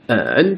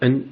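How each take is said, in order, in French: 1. Il se prononce avec le troisième ton. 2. Il se prononce avec le ton neutre. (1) "troisième ton" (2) "sans ton"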